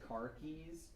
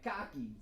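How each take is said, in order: First: It is said in a standard accent. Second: It is said in a Maine accent.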